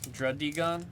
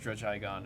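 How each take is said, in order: First: The middle sounds like 'dig' with a hard d. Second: The middle sounds like 'judge' followed by 'igon'. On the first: The speaker calls it right. "it's something with dig. So I think Drud Druddigon makes more sense" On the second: The speaker calls it wrong. "I've always read it as Drudge-Igon"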